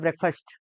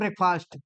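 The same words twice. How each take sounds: First: The last syllable is reduced to 'fust'. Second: The last syllable has a full 'fast' vowel. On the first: The speaker calls it right. "इसका उच्चारण फर्स्ट हो जाता है। तो इसको कहा करो" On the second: The speaker calls it wrong. "क्या बोलते हैं हम लोग? ब्रेकफास्ट बोलते हैं"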